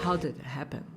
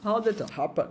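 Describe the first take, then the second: First: Low, soft "How did it happen?" with "happen" as "HEP-en"; imitação do americano. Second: Soft "How did it happen?" with "happen" as "HAP-uh"; britânico com batata na boca. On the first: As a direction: quietly echo the American "happen". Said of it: "ouça o inglês americano". (baixinho, "happen" com "é", à americana) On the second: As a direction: swallow the British "happen" as if mouth full. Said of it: "inglês britânico parece ter uma batata na boca". ("happen" engolido, com "a", à britânica) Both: Shown as a demonstration.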